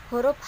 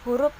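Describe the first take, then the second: The two takes are said the same way.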